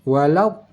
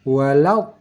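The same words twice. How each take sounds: Both takes have the same delivery.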